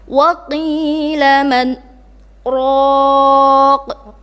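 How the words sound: A short silent break separates the last two words. The speaker calls it right. "kita harus berhenti antara kata man dan raq"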